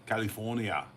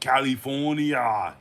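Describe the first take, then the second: First: The accent impression is relaxed and subtle. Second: The accent impression is broad and exaggerated. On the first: It tries to sound like the person. "it's just like a relaxed way of saying it" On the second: It mocks the person being imitated. "if you want to make fun of something"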